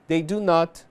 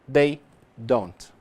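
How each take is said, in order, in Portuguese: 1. A negação é dita como duas palavras completas. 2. A negação é contraída em uma sílaba. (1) "forma por extenso" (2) "a forma contraída"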